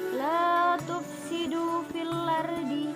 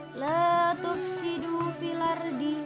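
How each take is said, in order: The two takes are said the same way.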